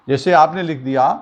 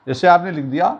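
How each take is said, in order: The two takes are said the same way.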